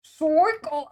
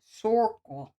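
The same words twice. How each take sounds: First: Loud, high New York "Circle" as "sɔkəl"; a big New York "Circle", almost called out; New York accent. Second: "Circle" with a New York "sɔɹkəl" vowel; a light New York accent on "Circle". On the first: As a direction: nail "Circle" like a New Yorker. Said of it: "you're actually right". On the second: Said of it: "in a New York accent". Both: Shown as a demonstration.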